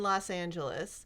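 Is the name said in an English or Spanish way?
English. The name is said with English pronunciation. The speaker calls it wrong.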